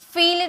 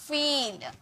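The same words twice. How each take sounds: First: The vowel is short and clipped. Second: The vowel is long and stretched. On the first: The speaker calls it wrong. "फील नहीं" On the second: The speaker calls it right. "थोड़ा टानिए, ये बड़ी की मात्रा है"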